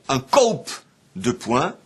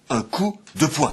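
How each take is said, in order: First: The first word has an a-u glide, no l. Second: The first word has a plain oo vowel. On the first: This is the form after l turned into u. "on a dit" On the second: This is the modern form of the word. "et ensuite"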